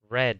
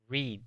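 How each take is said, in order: First: The vowel is a short 'eh' sound. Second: The vowel is a long 'ee' sound. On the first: The action happened in the past. "en el pasado se pronuncia red, como el color rojo" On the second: The action happens in the present. "En su forma básica, leer se dice read, como una I"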